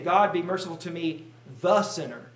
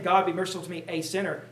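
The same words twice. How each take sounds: First: "the sinner" with weight on "the"; emphasis on "the" in "the sinner"; stress on the. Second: Said in the usual way. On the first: Shown as a demonstration. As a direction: lean on "the" in "the sinner". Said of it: "Notice the emphasis that he is putting". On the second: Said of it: "he's not saying".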